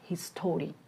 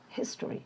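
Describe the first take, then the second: First: The middle vowel is full and clear. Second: The middle vowel is reduced or dropped. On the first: The speaker calls it wrong. "not history" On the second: The speaker calls it right. "the weaker sound schwa uh sound"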